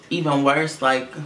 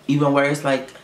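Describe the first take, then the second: No difference in how they are said.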